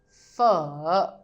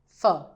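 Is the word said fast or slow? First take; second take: slow; fast. First: The word is said slowly and fully. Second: The word is said quickly and shortly.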